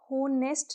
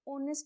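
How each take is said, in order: First: The word begins with an h sound. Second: The word begins with a vowel sound. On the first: The speaker calls it wrong. "होनेस्ट नहीं होता है" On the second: The speaker calls it right. "एच इसमें silent होता है, ऑनेस्ट बोला जाता है"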